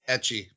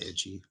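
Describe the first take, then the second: First: The first vowel sounds like 'e' in 'bet'. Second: The first vowel sounds like 'i' in 'bit'. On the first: The speaker calls it right. "Etchy, not itchy" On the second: The speaker calls it wrong. "not itchy"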